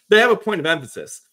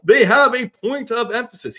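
First: Said in the usual way. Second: High, booming play-by-play impression; Kevin Harlan. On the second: Podcaster retrying the play-by-play guy's voice, loud announcer delivery. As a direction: project it loudly like a game announcer. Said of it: "Kevin Harlan voice".

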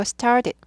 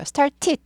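First: "started" with the middle t flapped like a d; t softened to d. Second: "started" with a crisp, fully released second t; hard t. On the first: Teacher gives learners the fix, d-like t in "started". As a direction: say "started" as if "star-did". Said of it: "트 발음이 드 발음이 약화되죠". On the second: Teacher shows the take to avoid, hard-t "started". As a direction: say "started" with the middle t popping as a real t. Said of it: "started 하지 않고". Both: Shown as a demonstration.

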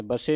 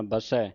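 First: ਬਸੇ ending in a closed "ay"; ਬਸੇ as "ba-say", the mistaken reading. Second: ਬਸੈ ending in an open "ai"; ਬਸੈ as "ba-sai", the corrected reading. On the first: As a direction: end ਬਸੇ on a narrow e. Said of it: "ਨਹੀਂ ਪੜ੍ਹਨਾ". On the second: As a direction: open up the last vowel of ਬਸੈ. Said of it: "ਦੁਲਾਵਾਂ ਲੱਗੀਆਂ". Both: Shown as a demonstration.

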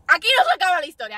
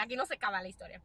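First: Loud and fast, punchy. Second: Dropped low and soft; quiet low. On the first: Vlogger hyping her story, said loud and fast. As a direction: fire the line out loud and quick. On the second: Vlogger repeating her line, quiet and low. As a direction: pull it back down, almost to herself. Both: Shown as a demonstration.

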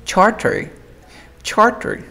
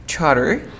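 First: Charter with a clear T, higher pitched; "charter" keeping the T after R; full T pronunciation. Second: Charter said "char-er", no T; "charter" gliding from R into the vowel; dropped T. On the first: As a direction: say "charter" as written, T sounded. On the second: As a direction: say "charter" with the T left out. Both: Shown as a demonstration. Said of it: "Pero para sonar más cool".

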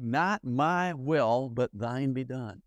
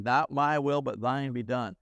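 First: Very slow, surrendered prayer; Jesus praying in the garden, very slow and reverent. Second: Said in the usual way. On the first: Acted. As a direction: draw each word out in solemn surrender. Quoting Jesus' prayer in Gethsemane.

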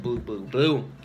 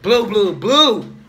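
First: Lightly voiced mumbling buddy; mocking imitation. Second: Louder, higher mocking chant; loud mock repeat. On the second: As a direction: belt it out to tease him. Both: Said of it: "He said".

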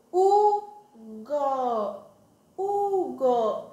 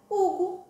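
First: Very slow, each syllable held and separate. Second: Hugo blended into one short word, higher; said quickly. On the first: Teacher joining two syllables for children, Hugo slowly sounded out. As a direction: stretch Hugo into a long U, then go. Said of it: "quando eu junto elas duas". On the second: Teacher revealing the formed word, Hugo quick and joined. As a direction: run the two syllables of Hugo straight together. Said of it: "e falo rapidinho". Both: Shown as a demonstration.

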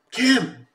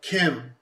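First: High, loud cry of the name; mock scream. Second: Raised, higher-pitched call of a name; first call, unscreamed. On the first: Rapper turns to her in the car, imitated scream. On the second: Retold or imitated. Rapper retells calling Kim in the car, first call. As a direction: call her name, not yet screaming. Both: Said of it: "the second time when he screams it".

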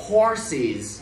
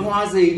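First: "Horses" in two slow syllables, HOR-siz, falling; clear s sound. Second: "hoa gì" as horses with z in place of s; mispronounced horses. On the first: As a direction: keep the middle s hissed in "Horses". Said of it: "để âm sơ má". (đọc "Horses" giữ âm s, hai âm tiết) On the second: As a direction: swap the hissed s for a voiced sound in "hoa gì". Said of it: "Đừng có hoa gì nha". (đọc sai "hoa gì", mất âm s) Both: Shown as a demonstration.

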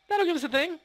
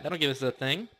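First: Same words pitched way up, silly; playful high-pitched repeat; squeaky high voice. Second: Said in the usual way. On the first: Shown as a demonstration. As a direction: squeak it out like a cartoon. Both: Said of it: "repeats line in new voice".

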